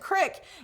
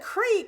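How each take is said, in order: First: The vowel is a short 'i' sound. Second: The vowel is a long 'ee' sound. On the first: This is how a nearby town says it. "they said crick" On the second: This is how the speaker's own town says it. "we said creek"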